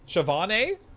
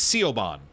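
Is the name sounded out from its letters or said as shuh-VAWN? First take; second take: shuh-VAWN; from letters. First: The name is said with a sh sound. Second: The name is sounded out following its letters. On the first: "how do I actually say it?" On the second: "if I'm reading it for the letters"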